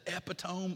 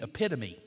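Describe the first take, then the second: First: The stress falls on an unexpected syllable. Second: The stress falls on the expected syllable. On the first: The speaker calls it wrong. "You put the emphasis on the wrong syllable" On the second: The speaker calls it right. "you mean epitome"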